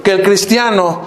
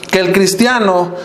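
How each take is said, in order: Both takes have the same delivery.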